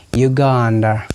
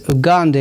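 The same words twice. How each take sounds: First: Uganda starting with a "you" sound; European pronunciation. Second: Uganda starting with short "oo", no y sound. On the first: How Europeans say it, you-sound Uganda. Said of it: "European pronounce it Uganda". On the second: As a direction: say Uganda as "oo-GAN-da". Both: Shown as a demonstration.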